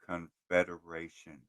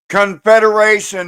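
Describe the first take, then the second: First: The word is said quietly. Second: The word is said loudly. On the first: "I don't think they heard you" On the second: "say it louder"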